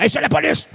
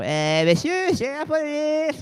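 First: Loud, high, commanding police call; firm cop announcing himself. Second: Hesitant and unsure, a feeble "police"; timid police call. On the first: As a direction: bark it out with authority. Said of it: "il faut quand même avoir une voix". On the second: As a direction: say it like a meek cop who lacks a voice. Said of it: "On dit pas". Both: Shown as a demonstration.

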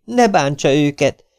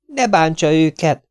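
First: Higher, pleading woman's voice, stepping in. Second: Higher, slow, insistent woman's voice; firm woman's plea. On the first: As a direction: plead with him to spare them. Hollóné begs Kinizsi. (magasabb, könyörgő asszonyhang) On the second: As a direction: repeat it slowly so he listens. Hollóné repeats, slower and firmer. (lassú, magas, határozott asszonyhang) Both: Acted.

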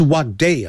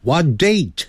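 First: "day" left open, with no T at the end; "day" in place of "date", T dropped; missing final T. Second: "date" closed with an audible T; "What date" with the last T clearly pronounced; final T sounded. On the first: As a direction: say "what day", ending on the vowel. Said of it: "不是what day啊". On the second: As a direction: finish "date" on a released T. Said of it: "那个t的音要念出来". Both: Shown as a demonstration.

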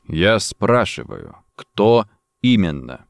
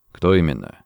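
First: «кто именно» low and very slow; insistent repeat. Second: Low, controlled question; terse question. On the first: Saunders repeats «кто именно» at gunpoint, slow and insistent. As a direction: spell out «кто именно» with slow, separated weight. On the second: Saunders presses gun to Rossetti's temple, terse. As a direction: ask «Кто именно» briefly in a dropped voice. First interrogation question, then repeated. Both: A narrator's reading.

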